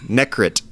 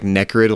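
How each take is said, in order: First: The name ends with a t sound. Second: The name ends with a d sound. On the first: It is the name as actually spelled. The speaker calls it right. "Necrit. N E K R I T, apparently" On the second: It is heard as related to death and decay. The speaker calls it wrong. "I used to think it was like Necrid, like the Death Expanse"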